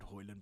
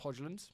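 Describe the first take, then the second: First: The middle consonant is a soft Y sound. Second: The middle consonant is a hard J sound. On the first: The speaker calls it right. "who I know is called Hoyland" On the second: The speaker calls it wrong. "I just like pronouncing the J"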